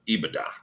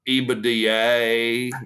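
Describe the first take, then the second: First: It is pronounced the usual modern way. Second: It is pronounced an older, old-school way.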